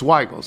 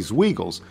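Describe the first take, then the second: First: The first vowel is a long I sound. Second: The first vowel is not a long I sound. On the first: The speaker calls it right. "should be said with a long I sound" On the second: The speaker calls it wrong. "everybody in the Finger Lakes region winces"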